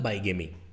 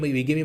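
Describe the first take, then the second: First: The first syllable sounds like 'bye'. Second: The first syllable sounds like 'bee'. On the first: The speaker calls it wrong. "हम लोगों की आदत पड़ी हुई है बाईगेमी बाईगेमी बोलने का" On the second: The speaker calls it right. "जो जज साहब हैं वो बीगेमी बोल रहे हैं, इसका मतलब उनका प्रोनाउंसिएशन ज़्यादा ठीक है"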